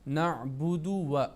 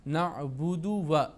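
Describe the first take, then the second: The two takes are said the same way.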